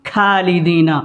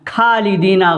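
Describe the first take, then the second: Both takes have the same delivery.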